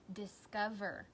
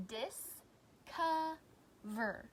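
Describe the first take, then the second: First: Said in the usual way. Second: "Discover" very slowly as dis, co, ver; long pause after each syllable of "Discover"; split into syllables. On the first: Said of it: "tell me what the whole word is". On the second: Shown as a demonstration. Teacher giving pupils pieces to blend, "Discover" in three beats. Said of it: "I'm gonna say the syllables in these words".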